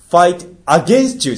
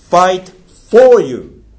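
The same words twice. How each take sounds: First: Slow, high fight against you; contrasting wrong phrase. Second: Very slow, high, loud fight for you; stressed English phrase. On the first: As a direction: set it up as the wrong reading. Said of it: "じゃないんですよ". (否定する例としてゆっくり) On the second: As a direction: spell out each word emphatically. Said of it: "「fight against you」じゃないんですよ". (ゆっくり高く強調して) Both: Shown as a demonstration.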